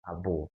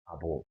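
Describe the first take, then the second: The two takes are said the same way.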